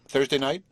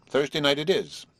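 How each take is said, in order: First: THURSDAY NIGHT rising high as a question. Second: THURSDAY NIGHT settled, falling at the end; confirming. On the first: Marcia proposing a show night to Horace, "Thursday night" rising in question. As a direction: lift the end of "Thursday night" to ask. Asks, then confirms the night. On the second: Marcia settling the show night with Horace, "Thursday night" falling in confirmation. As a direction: bring "Thursday night it is" down to a firm close. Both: A narrator's reading.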